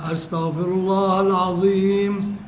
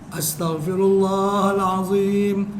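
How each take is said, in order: No difference in how they are said.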